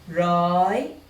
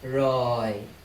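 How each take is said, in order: First: The syllable is said with a high tone. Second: The syllable is said with a low tone. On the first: "high tone" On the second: "low tone"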